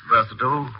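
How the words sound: It is said with an American pronunciation. "the Princetonian versatile"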